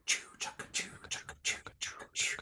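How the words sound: It is whispered while breathing out.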